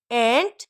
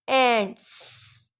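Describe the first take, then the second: First: Said in the usual way. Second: एंट्स drawn out slowly, hissing s; slow s ending. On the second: Shown as a demonstration. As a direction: stretch एंट्स and hiss the end. (एंट्स धीरे, स पर ज़ोर) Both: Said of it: "plural के sounds को".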